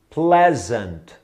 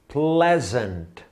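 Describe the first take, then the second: Both takes have the same delivery.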